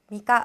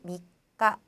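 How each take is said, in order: First: It is said quickly without holding the consonant. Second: The middle consonant is pressed and held briefly. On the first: The speaker calls it wrong. "빨리 넘어가시려고 미까 막 이렇게 하는데 그러시 하지 마시고요" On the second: The speaker calls it right. "꼭꼭 눌러서 누르듯이"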